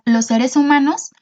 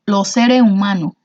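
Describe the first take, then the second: First: Said in the usual way. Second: Los seres humanos in a Cuban accent, final s dropped, lo sere umano; Los seres humanos con acento cubano, sin las eses. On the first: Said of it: "aquí las palabras los seres humanos". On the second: Shown as a demonstration. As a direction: drop the s sounds like a Cuban would. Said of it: "cómo lo pronunciaría un cubano".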